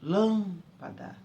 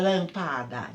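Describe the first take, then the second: First: The first vowel is said closed. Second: The first vowel is said open. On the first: The speaker calls it right. "Eu falo lâmpada" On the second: The speaker calls it wrong. "Ninguém fala lâmpada, isso não existe"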